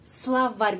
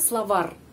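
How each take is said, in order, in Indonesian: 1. R di akhir dilunakkan. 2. R di akhir keras. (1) "Ada tanda pelemah yang melemaskan huruf R"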